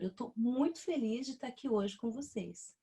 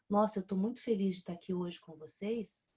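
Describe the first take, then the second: First: It sounds warm and smiling, with a pause. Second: It sounds flat and unconvincing.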